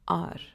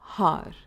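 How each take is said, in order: First: The word starts without an h sound. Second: The word starts with an h sound. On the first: The speaker calls it right. "we pronounce it as R" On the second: The speaker calls it wrong. "not har"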